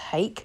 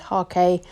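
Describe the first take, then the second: First: The word is said with an English pronunciation. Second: The word is said with a Japanese pronunciation. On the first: "sometimes pronounced Hake" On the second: "the Japanese pronunciation is Hake"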